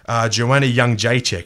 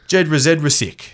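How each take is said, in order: First: The surname gets its native Polish pronunciation. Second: The surname is read out just as spelled. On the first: "that is how you say it" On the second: "if you said it phonetically"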